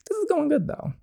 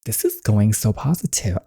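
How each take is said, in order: First: Much higher, squeaky and small. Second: Said in the usual way. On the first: Real, not acted. Gamer commenting on the scene, squeaky high voice. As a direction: pop the comment up into a tiny squeak.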